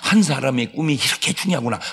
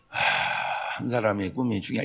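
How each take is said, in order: First: It is said with strong, heartfelt feeling. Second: It is said flatly, without feeling.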